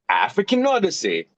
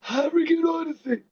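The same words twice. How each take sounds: First: It is said with full, energetic voice. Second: It is said breathy and tired. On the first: The speaker calls it right. "sound like you have a lot more energy" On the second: The speaker calls it wrong. "You cannot sound breathy"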